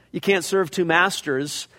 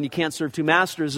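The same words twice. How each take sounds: First: "can't" leaned on, slowed; slow, with weight on "can't"; "can't" as the key word; stress on can't. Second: "masters" stressed, falling tune. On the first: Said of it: "the emphasis of the word to underline". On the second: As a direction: underline the word "masters". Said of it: "is the word masters". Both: Shown as a demonstration.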